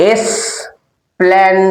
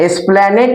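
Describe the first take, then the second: First: "এসপ্ল্যানেড" split slowly into three syllables; slow syllable drill. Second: Said in the usual way. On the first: Shown as a demonstration. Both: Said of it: "তিন syllable".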